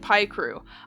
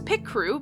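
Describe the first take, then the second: First: The first syllable sounds like 'pie'. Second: The first syllable sounds like 'pick'. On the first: "I say it Pie Crew" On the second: "because pic, like picture"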